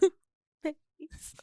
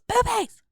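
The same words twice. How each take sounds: First: It is moaned like a sad ghost. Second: It is screamed like a loud ghost.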